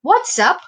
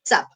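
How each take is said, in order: First: It is contracted into two syllables. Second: It is squeezed into one syllable. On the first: "short form হচ্ছে what's up" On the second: "আরো বেশি contracted form হচ্ছে চাপ"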